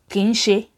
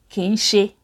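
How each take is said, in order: First: The syllables are run together like two words. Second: The syllables are run together like two words.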